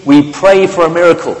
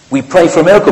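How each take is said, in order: First: Quoted headline. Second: Raised, louder headline cry; mock headline proclamation. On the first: Retold or imitated. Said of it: "says Ericsson". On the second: Preacher mock-proclaiming the football headline, raised and loud. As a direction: announce it like a tabloid front page.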